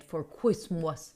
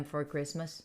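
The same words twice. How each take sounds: First: "Christmas" said as "kwis-mahs", lower; playful "kwismas". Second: Said in the usual way. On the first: Shown as a demonstration. Streamer plans a gift, "Christmas" said as "kwis-mahs". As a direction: swap the r in "Christmas" for a w. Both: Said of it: "You don't know Christmas".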